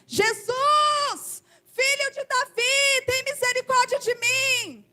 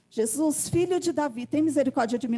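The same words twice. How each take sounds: First: It is shouted loudly. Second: It is said at normal speaking volume.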